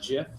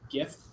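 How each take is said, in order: First: It begins with a soft J sound. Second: It begins with a hard G sound. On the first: "not GIF" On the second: "I say GIF, ... a good GIF is like it's like a gift"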